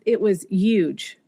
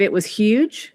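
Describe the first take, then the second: First: Huge is said without the h sound. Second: Huge is said with the h sound. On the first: "I said something like" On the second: "instead of"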